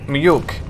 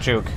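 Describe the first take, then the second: First: The j is sounded like an English y. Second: The j is sounded like an English j. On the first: The speaker calls it right. "Swedish J is Y" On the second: The speaker calls it wrong. "not juke"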